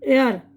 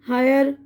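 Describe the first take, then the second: First: The opening 'h' sound is left silent. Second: The opening 'h' sound is pronounced. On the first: The speaker calls it right. "एच silent इसमें" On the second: The speaker calls it wrong. "मैंने silent कुछ भी नहीं किया है"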